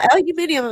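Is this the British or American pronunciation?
British. It is said with five syllables, British style. The British people in the story said it. "They said, "No, aluminium.""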